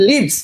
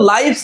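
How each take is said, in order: First: The vowel is a short 'i' sound. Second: The vowel is a long 'eye' sound. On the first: It is the verb meaning to dwell. The speaker calls it right. "এটা কি লিভস" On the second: It is the plural noun of life. The speaker calls it wrong. "এটা কিন্তু লাইভস না"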